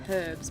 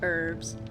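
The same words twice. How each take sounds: First: The word is said in a non-American way. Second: The word is said in an American way. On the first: "Not herbs" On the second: "That's what how you guys call them in America"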